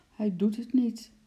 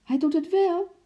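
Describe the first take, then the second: First: Higher, glum little mumble; disheartened mumble. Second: Very high, loud insistence; excited call. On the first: Henkie losing hope in the monkey, mumbling. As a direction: mumble it, close to tears. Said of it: "mompelde Henkie". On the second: Lotje contradicting Henkie, excited shout. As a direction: cry out thrilled, pitched way up. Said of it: "riep Lotje opgewonden". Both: A narrator's reading.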